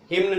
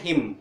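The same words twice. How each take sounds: First: हिम्न with an n after the m; sounded N. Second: हिम closing on m; silent N. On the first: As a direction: say हिम्न as "him-na". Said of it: "हिम्न नहीं बोलते". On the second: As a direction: say हिम with no n after it. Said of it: "एन silent हो गया". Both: Shown as a demonstration.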